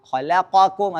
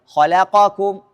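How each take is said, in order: The two takes are said the same way.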